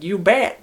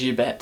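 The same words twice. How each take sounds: First: Upbeat, higher "You bet" with a lift at the end; eager reply. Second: Said in the usual way. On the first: Shown as a demonstration. Old man answers an excited girl with a bright "You bet". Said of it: "I could understand if she was like". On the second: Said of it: "he says".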